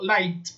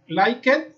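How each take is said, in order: First: The ending is a short t sound. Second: The ending is an added extra syllable. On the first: The speaker calls it right. "sino que digo" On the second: The speaker calls it wrong. "no digo"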